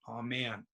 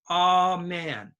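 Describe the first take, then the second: First: The word is said plainly, without extra emphasis. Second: The word is said with strong, heavy emphasis. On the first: "If you just say amen, that's no stress" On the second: "if some people like to put stress on amen"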